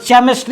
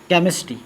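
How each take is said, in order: First: The word starts with a ch sound. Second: The word starts with a k sound. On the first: The speaker calls it wrong. "अगर गलती से पढ़ दिए इसमें च" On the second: The speaker calls it right. "यहां पर च का सॉरी क का उच्चारण हो रहा है"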